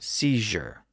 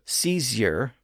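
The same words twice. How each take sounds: First: The middle consonant is a zh sound. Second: The middle consonant is a z sound. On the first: This is the modern pronunciation. "they shifted to a new J sound" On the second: This is the older pronunciation. "Words that had a Z sound"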